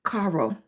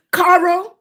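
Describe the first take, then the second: First: "Caro" tried low and soft, falling at the end; tentative low "Caro"; trying the name. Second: "Caro?" asked higher with a rising tune; questioning high "Caro?"; checking the name. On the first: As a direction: mutter "Caro" quietly as a first guess at the name. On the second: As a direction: ask "Caro?" upward, checking if it's right. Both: Shown as a demonstration. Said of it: "I didn't say it right".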